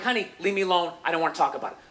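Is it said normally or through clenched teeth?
normally. It is said in a normal, relaxed voice.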